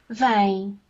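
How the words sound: It is said as a gentle request.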